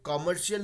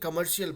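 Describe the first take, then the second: First: The first vowel is an open 'aw' sound. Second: The first vowel is a short 'uh' sound. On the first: The speaker calls it wrong. "कॉमर्शियल नहीं बोल के" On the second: The speaker calls it right. "Which is the right way to pronounce it"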